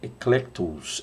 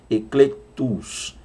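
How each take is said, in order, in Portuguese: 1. A palavra é dita em velocidade normal. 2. A palavra é dita devagar e com cuidado.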